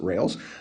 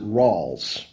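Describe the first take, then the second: First: The vowel sounds like the one in 'pails'. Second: The vowel sounds like the one in 'halls'. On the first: "I pronounce it rails" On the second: "some people pronounce it rawls"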